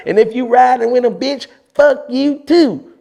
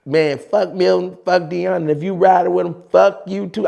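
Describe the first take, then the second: First: Imitating JR on tape. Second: Imitating JR. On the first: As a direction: stretch the last words in a high mock JR voice. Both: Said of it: "I actually do it on tape, exactly how he said it".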